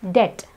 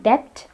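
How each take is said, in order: First: Debt said with no B; debt with a bare T ending; silent B. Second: Debt with the B heard before T; debt ending in a P-T cluster; B wrongly sounded. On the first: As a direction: say debt as det. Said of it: "the B is silent". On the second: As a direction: say debt as dept. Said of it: "It's not debt". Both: Shown as a demonstration.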